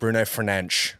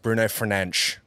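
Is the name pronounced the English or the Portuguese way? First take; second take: Portuguese; Portuguese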